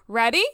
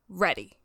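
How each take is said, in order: First: It is said as a rising question. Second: It is said as a falling, firm statement.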